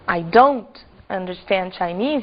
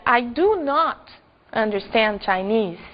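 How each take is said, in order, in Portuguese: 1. A negação se contrai em uma palavra curta só. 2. A palavra not é dita por inteiro e separadamente.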